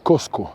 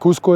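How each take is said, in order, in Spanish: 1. La primera vocal suena como 'o'. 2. La primera vocal suena como 'u'. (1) "Cosco es la palabra quechua" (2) "Cusco es la forma del, del castellano"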